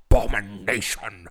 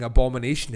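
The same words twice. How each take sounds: First: Bill Nighy impression. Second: Said in the usual way. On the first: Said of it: "he has a particular way in that film of saying abomination". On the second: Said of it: "has a particular way in that film of saying abomination".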